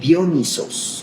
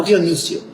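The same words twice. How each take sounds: First: "Dionisos" said slowly, syllable by syllable, with a falling end; correct Dionisos. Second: Says "Dionisio" as the wrong form to avoid; wrong name Dionisio. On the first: Teacher models the name for students, slow and careful. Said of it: "Acento en la primera O". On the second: Teacher naming the wrong form, Dionisio. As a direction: contrast "Dionisio" against the correct "Dionisos". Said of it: "No Dionisio". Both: Shown as a demonstration.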